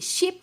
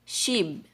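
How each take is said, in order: First: The word ends with a P sound. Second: The word ends with a B sound. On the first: The speaker calls it wrong. "no. Not P sound" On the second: The speaker calls it right. "but B"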